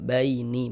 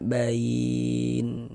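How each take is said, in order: First: The word ends with an added vowel sound. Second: The word ends on the consonant n. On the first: The speaker calls it wrong. "Jangan dibaca baini baru berwakaf" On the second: The speaker calls it right. "Tapi kita baca bain seperti itu"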